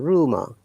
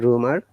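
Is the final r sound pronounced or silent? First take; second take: silent; pronounced. First: The final r sound is silent. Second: The final r sound is pronounced.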